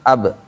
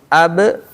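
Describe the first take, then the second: First: The final b is said softly without a bounce. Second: The final b is released with an audible bounce. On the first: The speaker calls it wrong. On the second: The speaker calls it right.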